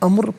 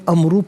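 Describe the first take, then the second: First: The word ends on a bare r sound. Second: The word ends with a short u vowel. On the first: The reader stops at this word. "वफ़ की सूरत में अम्र पढ़ा जाएगा, रा साकिन की आवाज़ होगी" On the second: The reading continues without stopping. "इसे क़ुदियल अम्रु पढ़ेंगे"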